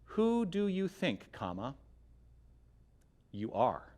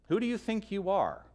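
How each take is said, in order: First: It breaks after 'think' as a statement. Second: It runs on as one question.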